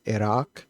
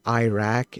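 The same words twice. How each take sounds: First: Second IRAQ said "ih-ROCK"; Iraq with short I. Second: First IRAQ said "eye-RACK"; Iraq with long I. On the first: Shown as a demonstration. Coder giving the other way to say it, ih-ROCK pronunciation. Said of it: "instead of Iraq". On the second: Retold or imitated. Coder imitating people who say it that way, eye-RACK pronunciation. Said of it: "people who say Iraq instead of Iraq".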